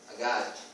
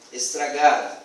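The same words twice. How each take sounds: First: Agado, the first syllables dropped; child's version. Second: Said in the usual way. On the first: Shown as a demonstration. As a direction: say agado, soft and low. (agado, como a criança, sem estra)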